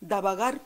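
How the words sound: It is said the Haketia way. "mais nous on va dire davagar contigo"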